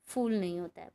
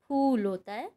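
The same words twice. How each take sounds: First: फूल with f like fool; wrong f. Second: फूल with an aspirated p; plain ph; correct ph. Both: Shown as a demonstration.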